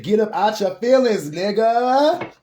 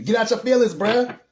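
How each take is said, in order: First: High, loud street-talk scolding; louder, harder telling-off; blunt spirit voice, stronger. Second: High, loud, no-nonsense push; blunt spirit voice. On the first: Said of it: "My spirit guy said". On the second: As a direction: snap them out of moping, loudly. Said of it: "It's telling me". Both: Retold or imitated.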